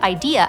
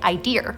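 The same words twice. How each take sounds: First: It ends in a plain vowel with no R. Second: It ends with an added R sound. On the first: "instead of idea" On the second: "I used to say idea"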